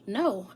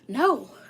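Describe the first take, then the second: First: It is said gently and softly. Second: It is said forcefully and loudly.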